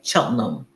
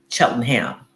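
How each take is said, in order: First: The name is said the British way. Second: The name is said the Philadelphia American way.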